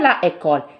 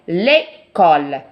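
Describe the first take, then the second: First: The vowel of la is kept before école. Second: The vowel of la is dropped before école. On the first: The speaker calls it wrong. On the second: The speaker calls it right.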